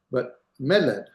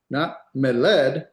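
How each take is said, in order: First: "meled" with me accented and led light; weight on me, drop off on led in "meled"; stress on first syllable. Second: "meled" wrongly accented on the ending led; drawn-out "meled" with a loud final led; stress on LED. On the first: Teacher repeating the correct version, "meled" stressed on its first syllable. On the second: Teacher repeating the mistake for contrast, "meled" stressed on led. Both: Shown as a demonstration. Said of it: "Hear the difference?".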